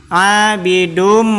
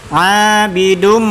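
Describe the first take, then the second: Both takes have the same delivery.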